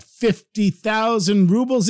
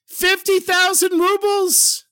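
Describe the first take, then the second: First: Said in the usual way. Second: High, drawn-out cry of amazement; thrilled exclamation. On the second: Acted. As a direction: exclaim it slowly, way up high in wonder. Thieves discover the treasure, rejoicing.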